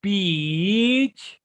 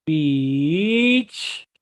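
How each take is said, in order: First: "Pitch" with a rising end; pitch said carefully. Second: "pitch" louder with a clear vowel; pitch said carefully. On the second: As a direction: land firmly on "pitch". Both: Shown as a demonstration. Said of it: "a lot of people never say pitch".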